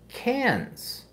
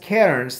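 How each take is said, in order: First: The r sound is dropped entirely. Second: The r sound is pronounced clearly. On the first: How locals say the name. "They call say it as cans" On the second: How outsiders say the name. "they don't say it as cairns"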